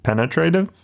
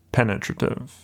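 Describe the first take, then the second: First: Penetrative said PEN-uh-tray-tive, rising like a question; questioning alternate pronunciation. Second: PENETRATIVE said PEN-uh-truh-tiv; trial pronunciation. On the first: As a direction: try out Penetrative with a long "tray", unsure. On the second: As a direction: say penetrative with an unstressed "truh" in the third-last sound. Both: Shown as a demonstration. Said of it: "correct pronunciation of penetrative".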